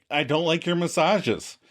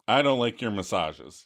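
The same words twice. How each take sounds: First: Mildly insistent imitated plea; Monica's request. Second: Put-on lower, hesitant boyfriend voice; Chandler's reluctant admission. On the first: Girlfriend demands honesty from boyfriend, mildly insistent. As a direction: act out a girlfriend asking for honesty. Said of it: "I wish you could just tell me". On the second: Boyfriend admits the truth to girlfriend, low and reluctant. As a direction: own up reluctantly, pitched down. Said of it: "And Chandler's like".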